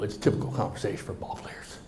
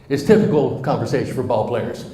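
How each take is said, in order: First: Soft unvoiced throwaway; muttered aside. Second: Said again much louder, stress on typical; louder repeat. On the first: Speaker to audience, muttering the aside about ball players. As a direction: mumble it under your breath. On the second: Speaker to audience, repeating the aside loudly. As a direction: belt typical out so everyone hears. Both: Shown as a demonstration. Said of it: "Did you hear that?".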